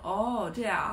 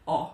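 First: It sounds friendly and relaxed. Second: It sounds curt and annoyed.

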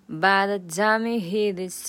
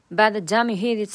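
First: It is said slowly and deliberately. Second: It is said at a normal, fast speed. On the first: "然后接下来是慢速版。" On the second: "先来常速版。"

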